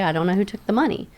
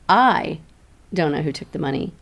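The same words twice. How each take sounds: First: The sentence is said evenly with no special stress. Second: The word I carries strong stress. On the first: It is a plain statement of not knowing. "That's very just, okay" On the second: Somebody else knows who took it. "now it's saying, oh somebody does"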